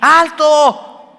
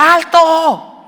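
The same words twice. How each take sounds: First: Much higher, much louder yell; shout. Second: Much higher, much louder yell of stop; shout. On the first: Shown as a demonstration. Preacher showing parents how to yell stop, full shout. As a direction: bark it as an emergency command. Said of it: "vas a tener que hacer así". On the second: Retold or imitated. Father yelling at his son driving into the intersection, full shout. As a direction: yell it to stop the car dead. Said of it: "le tengo que gritar".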